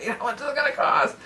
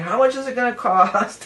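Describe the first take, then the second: First: Mock fretting Virgo. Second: Said in the usual way. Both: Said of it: "That's Virgo, right?".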